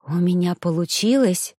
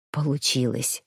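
First: Said in the usual way. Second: Soft, much lower, weary confirmation; whispered. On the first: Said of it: "Я подняла глаза на Данте". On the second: A narrator's reading. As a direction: breathe it out low and tired. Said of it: "прошептал он". (устало, низким шёпотом)

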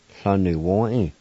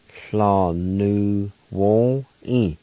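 First: Said in the usual way. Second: Fla nu won e drawn out very slowly; slow teaching take of Fla nu won e; very slow pronunciation. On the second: Shown as a demonstration. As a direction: stretch Fla nu won e for learners.

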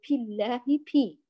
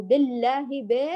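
First: بالله begun with a puffed p, "pillaahi"; devoiced baa. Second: بالله begun with "be", not "bi"; incomplete kasra. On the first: Teacher recaps the mistake, baa breathed like p. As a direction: let air out on the b of بالله. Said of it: "وألا نخرج فيها هواء". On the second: Teacher recaps the mistake, kasra left as "be". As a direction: slacken the first i of بالله to e. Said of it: "نراعي إتمام كسر الباء". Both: Shown as a demonstration.

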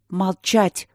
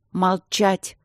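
First: Barked. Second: Shouted. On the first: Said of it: "рявкнула Полина". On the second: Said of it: "крикнула она Свенсону". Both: A narrator's reading.

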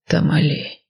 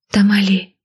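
First: Тамали drawn out slowly, falling. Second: Said in the usual way. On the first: A narrator's reading. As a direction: stretch Тамали long and low. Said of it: "протянул мужчина".

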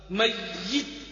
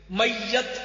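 First: "میت" as mayyit, short i in the second syllable; correct pronunciation. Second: "میت" as mayyat, with a in the second syllable; mispronounced demo "میت", mayyat; wrong pronunciation. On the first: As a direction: say "میت" carefully with -yit. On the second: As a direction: say "میت" with -yat at the end. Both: Shown as a demonstration. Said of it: "غلط".

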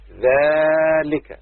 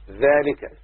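First: Very long first syllable in ذلك; drawn-out ذلك. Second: Said in the usual way. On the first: Shown as a demonstration. Teacher showing pupils the demonstrative, ذلك heavily stretched. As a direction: hold the vowel of ذلك, very slowly.

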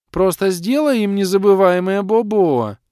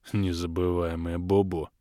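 First: Put-on high, loud childish demand; shrill spoiled girl. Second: Low snorting echo with a grunt; grunting mockery. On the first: Капризная дочь требует расправы. (капризно и громко, высоким голосом) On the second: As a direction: grunt it like a pig, mocking. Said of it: "хрюкнул Крей". (с хрюканьем, передразнивая) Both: A narrator's reading.

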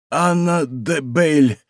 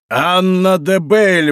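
First: Slow, laboured utterance of a wounded man; умирающий. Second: High, ringing, drawn-out exclamation; восклицание. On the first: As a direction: draw the name out with effort. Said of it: "проговорил раненый". (медленно, из последних сил) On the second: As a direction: cry the name out slowly, pitch raised. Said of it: "воскликнул монах". (громко воскликнув) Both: A narrator's reading.

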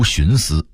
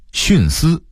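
First: 徇私 as xúnsī, 徇 rising; Beijing-style 徇私 without a falling 徇; Beijing dialect reading. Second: Said in the usual way. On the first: Shown as a demonstration. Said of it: "北京话读". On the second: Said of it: "北京话读徇私".

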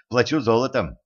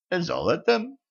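First: Said in the usual way. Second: High rising surprised question. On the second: A narrator's reading. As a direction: perk up, suddenly interested. Witch perks up at gold.

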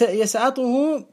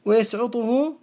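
First: يسعطه said yasʕaṭuhu; fatha on يسعطه. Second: ويسعطه said wa-yasʕuṭuhu; damma on ويسعطه. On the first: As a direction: open the ʕayn of يسعطه with an a. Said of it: "بالفتح المقيس". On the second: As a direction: round the ʕayn of ويسعطه into a u. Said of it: "بالضم المشهور". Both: Shown as a demonstration.

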